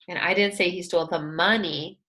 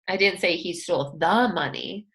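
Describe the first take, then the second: First: The stress falls on the word money. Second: The stress falls on the word the. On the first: He took something other than money. "He may have taken something else" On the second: He took some other money. "He stole some other money"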